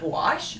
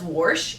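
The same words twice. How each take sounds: First: The word is said without an R sound. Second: The word is said with an R sound. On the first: It is the usual way to say it. The speaker calls it right. "There's not an R in wash" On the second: It is how a relative from Missouri says it. The speaker calls it wrong. "our aunt who lives in Missouri s- says wash"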